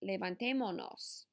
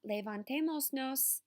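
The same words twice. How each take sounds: First: No s sound comes before the final nos. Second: An s sound comes before the final nos. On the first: The speaker calls it right. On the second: The speaker calls it wrong. "It's not"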